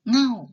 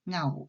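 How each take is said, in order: First: The syllable has a falling tone. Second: The syllable has a low tone. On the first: "เสียงโท" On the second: "เสียงเอก"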